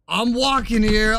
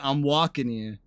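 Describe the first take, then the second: First: It is yelled loudly in an angry voice. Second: It is said in a casual, exaggerated accent. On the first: This is how the line is really delivered in the clip. The speaker calls it right. "He's yelling very angrily" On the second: This is the popular imitation of the line. The speaker calls it wrong. "They try to say it with a New York accent"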